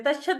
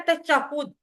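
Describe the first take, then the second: First: तशहद with a plain short a in the middle, tash-had; तशहद as people often mispronounce it; wrong pronunciation. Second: तशहुद with a clear u in the middle, tash-hud; तशहुद said carefully the correct way; correct pronunciation. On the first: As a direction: say तशहद the common wrong way, no u sound. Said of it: "इसको अक्सर लोग तशहद कहते हैं". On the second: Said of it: "तशहद नहीं है, ये है तशहुद". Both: Shown as a demonstration.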